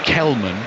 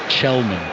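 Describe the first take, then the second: First: The name begins with a hard k sound. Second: The name begins with a soft ch sound. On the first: The speaker calls it wrong. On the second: The speaker calls it right.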